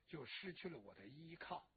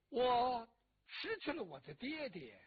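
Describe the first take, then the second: First: Softer and lower, 就失去了我的依靠 with a small lift on 去; sinking grief. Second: Louder, with stress on 失 in 我失去了我的爹爹 and a long falling end; grief-stricken emphasis. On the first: Daughter mourning her father, sinking to a soft voice. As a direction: let 就失去了我的依靠 drop away quietly. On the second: Daughter mourning her father, stressing 失 loudly. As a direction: lean hard on 失, then let the line fall. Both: Acted.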